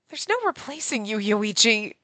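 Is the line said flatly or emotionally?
flatly. It is said flatly, without much feeling.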